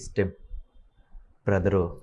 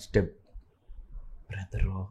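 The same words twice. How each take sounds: First: Both words come at once, without a pause. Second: A short pause comes after step, tone lowered.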